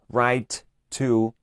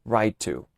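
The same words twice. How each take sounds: First: "write to" with two separate t's; double t, wrong. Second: "write to" with one long t; single long t. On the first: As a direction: say both t's, slowly and on purpose. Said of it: "estaría mal". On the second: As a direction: blend into "writo", t held once. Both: Shown as a demonstration.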